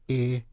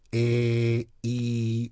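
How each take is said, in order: First: The vowel is held briefly. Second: The vowel is held longer.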